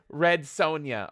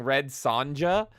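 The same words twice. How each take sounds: First: "Sonja" said SOHN-yuh, the J as a Y. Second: "Sonja" said with a hard English J, SAHN-juh; mispronounced Sonja. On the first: Host saying the name the European way, "Sonja" as SOHN-yuh. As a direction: say "Sonja" with a long O and a Y sound. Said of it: "The J's are Y's". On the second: Host admitting the name that got heat, "Sonja" as SAHN-juh. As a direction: say "Sonja" with J as in jam. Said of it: "I say things wrong". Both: Real, not acted.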